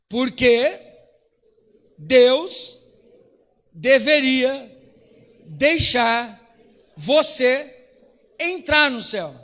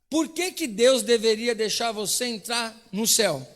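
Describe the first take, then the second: First: The question is said loudly, with force. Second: The question is said softly, without force.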